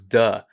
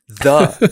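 First: The word begins with a hard d sound. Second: The word begins with a soft th sound. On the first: The speaker calls it wrong. "I was pronouncing as duh" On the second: The speaker calls it right. "every TH word"

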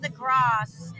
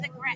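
First: It is said in a fake British accent. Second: It is said in a plain American accent.

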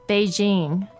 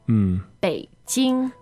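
First: It is said with an English-style pronunciation. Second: It is said with a Mandarin pronunciation and tones. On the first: The speaker calls it wrong. "not Beijing" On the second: The speaker calls it right. "In Chinese, it should be Beijing"

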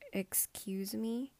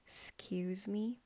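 First: The word begins with a clear 'e' sound before the 's'. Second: The word begins directly with the 's' sound, no 'e'. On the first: This is the proper, full form. "That is the proper one" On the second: This is the casual, slang form. "I start with the S"

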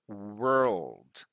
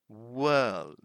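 First: The word is said with an R sound. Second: The word is said without an R sound. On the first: This is the American English pronunciation. "But in American English, they do pronounce the R" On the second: This is the British English pronunciation. "In British English, we don't pronounce the R. So we simply say world"

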